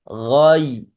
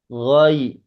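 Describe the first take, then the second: No difference in how they are said.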